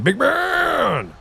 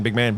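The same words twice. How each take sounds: First: Big man! drawn out high and long, falling at the end; booming hype call. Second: Said in the usual way. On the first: Real, not acted. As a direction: belt it out like hyping up a friend. Repeats greeting to raider, booming.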